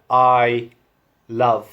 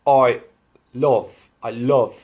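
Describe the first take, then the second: First: "I" as "eye", "love" as "luv"; "I love" in southern English vowels; standard English vowels. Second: "I" between "eye" and "oi"; "I love" nearing "oi lov"; Irish vowels. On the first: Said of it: "It's not something like". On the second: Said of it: "Between I and oi". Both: Shown as a demonstration.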